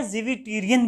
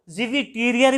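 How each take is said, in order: First: ज़िविटीरियन said ending in an n sound; ज़िविटीरियन with the final n, the other accepted variant; alternative pronunciation. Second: ज़िविटीरियर said ending in a clear r sound; ज़िविटीरियर with the final r, as one accepted variant; alternative pronunciation. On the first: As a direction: say it ज़िविटीरियन, finishing on n. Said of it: "ज़िविटीरियन भी बोलते हैं". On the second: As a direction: say it ज़िविटीरियर, finishing on r. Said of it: "ज़िविटीरियर भी बोलते हैं". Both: Shown as a demonstration.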